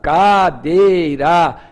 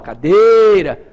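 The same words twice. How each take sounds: First: It is said slowly, syllable by syllable. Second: It is said at normal speed, one vowel lengthened. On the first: No syllable stands out as stressed. The speaker calls it wrong. "Se tu falares pausado" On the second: The stressed vowel stands out. The speaker calls it right. "show de bola"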